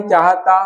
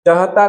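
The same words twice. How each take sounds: First: Said in the usual way. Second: चाहता with short first vowel: "chahata". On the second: Shown as a demonstration. Teacher showing the wrong spelling, short first vowel in चाहता. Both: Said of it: "नहीं".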